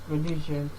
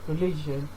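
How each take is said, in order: No difference in how they are said.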